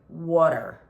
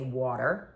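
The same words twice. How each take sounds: First: It is said in a heavier, stereotyped local accent. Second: It is said in a milder, more neutral accent. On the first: This is how others assume the speaker says it. The speaker calls it wrong. "which I don't say" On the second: This is how the speaker actually says it. The speaker calls it right. "I say water"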